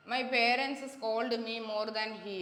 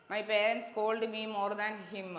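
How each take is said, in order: First: Very slow, carefully spaced reading of the wrong sentence; slow reading of the incorrect example. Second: Slow, deliberate reading of the right sentence; slow reading of the correct example. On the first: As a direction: dictate it slowly, word by word. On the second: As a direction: read the corrected sentence slowly for the class. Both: Shown as a demonstration. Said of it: "അതായത്".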